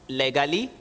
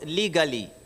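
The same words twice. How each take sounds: First: The first vowel is short, like 'leh'. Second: The first vowel is long, like 'lee'. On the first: The speaker calls it wrong. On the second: The speaker calls it right. "Lee, not le"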